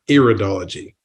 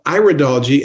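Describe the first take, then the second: First: The first syllable sounds like 'ear'. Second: The first syllable sounds like 'eye'. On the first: The speaker calls it wrong. "and not iridology" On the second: The speaker calls it right. "it's called iridology"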